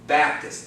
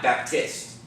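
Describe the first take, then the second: First: The stress is on the first syllable. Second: The stress is on the second syllable. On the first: The speaker calls it right. "First syllable" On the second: The speaker calls it wrong. "It's not Baptist"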